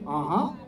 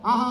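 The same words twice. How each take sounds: First: It is said with rich, elaborate expression. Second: It is said plainly, like ordinary talk.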